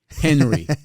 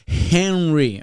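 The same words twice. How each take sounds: First: The opening H sound is not pronounced clearly. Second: The opening H sound is clearly pronounced. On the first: The speaker calls it wrong. "Like the H" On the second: The speaker calls it right. "No, no, no"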